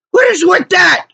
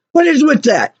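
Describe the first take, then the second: First: High-pitched incredulous cry; outraged. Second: Higher, incredulous question; exasperated. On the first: Customer venting about threats from garage workers, outraged. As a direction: burst out with it, much higher. Exasperated rant, louder repeat. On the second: Customer venting about garage workers, exasperated. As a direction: ask it in indignant disbelief. Exasperated rant, first take. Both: Real, not acted.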